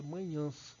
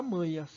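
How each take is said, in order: First: "manhãs" stressed on a nasal final "nhãs"; "manhãs" with stressed nasal ã before the S; nasalized, final stress. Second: "manhas" stressed on MA, oral final A; without nasalization. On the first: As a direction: lean on the last syllable of "manhãs", through the nose. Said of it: "eu quero dizer manhãs". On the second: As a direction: drop the ending of "manhas" to an unstressed plain A. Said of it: "para não ficar manhas". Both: Shown as a demonstration.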